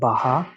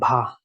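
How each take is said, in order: First: A vowel splits it into two syllables. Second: It is said as a single syllable. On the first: The speaker calls it wrong. "not baha" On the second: The speaker calls it right. "Again bha"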